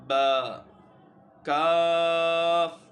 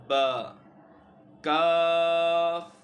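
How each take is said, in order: The two takes are said the same way.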